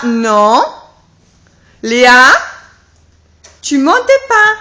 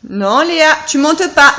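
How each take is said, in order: First: Yelling across the room. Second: Said in the usual way. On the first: Real, not acted. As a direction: raise the voice to stop her. Repeating warning to toddler. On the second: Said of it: "repeated louder".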